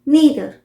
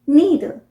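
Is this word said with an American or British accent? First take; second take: American; American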